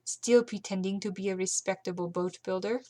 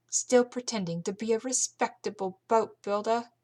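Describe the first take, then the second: First: Carlotta's line redone in her proper accent; corrected accent. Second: Carlotta's line in a slipped, mixed-up accent; a misplaced accent, pitched up; wrong accent. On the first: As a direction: settle back into the right accent. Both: Shown as a demonstration. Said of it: "I'm mixing up all my accents".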